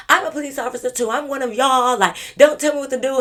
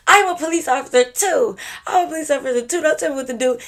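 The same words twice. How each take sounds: First: Much higher, louder, a bit fast; mock earnest insistence. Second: Much higher and louder insistence; mock dead-serious claim. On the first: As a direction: retell her insisting to the cop. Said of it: "she was telling a police officer". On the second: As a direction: imitate her insisting in earnest. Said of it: "She didn't say it with a smile".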